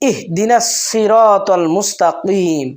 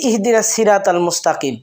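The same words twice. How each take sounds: First: The s in siratal is a heavy emphatic sound. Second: The s in siratal is a light plain sound. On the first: The speaker calls it right. "এটা সুন্দরভাবে উচ্চারণ হবে সোয়াদ" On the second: The speaker calls it wrong. "সিরা পড়তেছে সিন উচ্চারণ দিয়ে"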